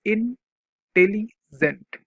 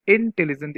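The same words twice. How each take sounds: First: intelligent broken into slow, separate syllables. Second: Said in the usual way. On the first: Shown as a demonstration. Teacher showing a class what syllables are, syllable by syllable. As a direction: say intelligent haltingly, with a gap between each syllable. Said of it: "रुक रुक के". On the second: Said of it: "देखो syllable क्या होगा".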